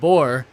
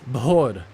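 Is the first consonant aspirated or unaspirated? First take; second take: unaspirated; aspirated. First: The first consonant has no breathy puff. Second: The first consonant has a breathy puff. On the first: The speaker calls it wrong. "It's not bor" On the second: The speaker calls it right. "you have to aspirate like bor"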